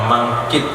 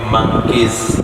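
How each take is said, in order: First: The name ends in a plain stop sound. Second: The name ends in a buzzing dh sound. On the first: The speaker calls it wrong. "bukan mangkit" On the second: The speaker calls it right. "tapi mangkiz pakai titik zal"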